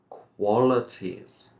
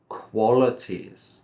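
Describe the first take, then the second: Both takes have the same delivery.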